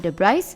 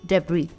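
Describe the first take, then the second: First: The final S sound is pronounced. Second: The final S sound is silent. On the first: The speaker calls it wrong. "it's not debris" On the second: The speaker calls it right. "The S here is silent"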